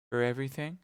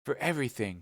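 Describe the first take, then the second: First: "For everything?" asked with a rising tune; questioning tune. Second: "For everything," said with a falling tune; firm answer. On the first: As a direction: rise at the end of "For everything?". Question echoed as an answer. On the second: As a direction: land "For everything," firmly downward. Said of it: "cried D'Artagnan". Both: Acted.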